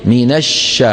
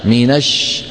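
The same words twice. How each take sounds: The two takes are said the same way.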